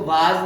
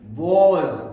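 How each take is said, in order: First: The vowel sounds like 'ah'. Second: The vowel sounds like 'o'. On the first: The speaker calls it wrong. "इसको वाज नहीं बोलना है" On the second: The speaker calls it right.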